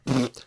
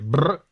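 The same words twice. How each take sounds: First: The lip trill is pushed by a closed-throat ejective burst. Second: The lip trill is driven by air from the lungs. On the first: "the second one was ejective" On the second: "The first one was pulmonary"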